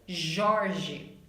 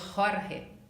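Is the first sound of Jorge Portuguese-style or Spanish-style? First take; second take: Portuguese-style; Spanish-style. First: The first sound follows Portuguese pronunciation. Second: The first sound follows Spanish pronunciation. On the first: "em português, Jorge" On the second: "em espanhol vamos dizer Jorge"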